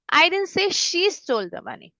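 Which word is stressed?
she. The stress falls on the word she. Someone else stole it. "मतलब किसी और ने चुराया होगा. Maybe someone else stole it"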